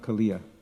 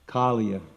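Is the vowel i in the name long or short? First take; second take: long; short. First: The i vowel is long. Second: The i vowel is short. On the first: The speaker calls it wrong. "not Kaliya. There's no long I" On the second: The speaker calls it right. "There's no long I"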